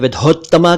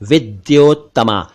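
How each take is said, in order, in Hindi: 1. बीच का व्यंजन सादा महाप्राण 'dh' है। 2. बीच का व्यंजन 'dy' संयुक्त ध्वनि है। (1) "कुछ लोग इसे विधोत्तमा कहते हैं" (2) "जबकि यह है विद्योत्तमा"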